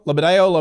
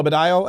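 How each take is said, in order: First: Lobadillo said as luh-buh-DAY-oh; unsure name pronunciation. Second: Lobadillo said as buh-DYE-oh, rising; unsure name pronunciation. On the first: Host guesses painter's name, Lobadillo as luh-buh-DAY-oh. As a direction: try Lobadillo with a DAY-oh ending. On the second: Host guesses painter's name again, Lobadillo as buh-DYE-oh. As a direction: try Lobadillo with a DYE-oh ending, questioning. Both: Shown as a demonstration. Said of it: "Lobadillo or Lobadillo".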